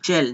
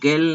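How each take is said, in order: First: The word begins with a soft j sound. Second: The word begins with a hard g sound. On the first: The speaker calls it right. "जी के आगे ई होने की वजह से जेल पढ़ते हैं" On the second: The speaker calls it wrong. "इसको गेल नहीं पढ़ते"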